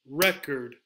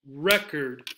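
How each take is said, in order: Both takes have the same delivery.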